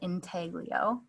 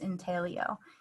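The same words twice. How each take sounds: First: The g is pronounced, said English style. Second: The g is silent, said Italian style. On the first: This is an adapted, westernized form of the word. "It has been westernized with a G pronounced" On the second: This is the original form of the word. "intaglio is the original Italian pronunciation of this process"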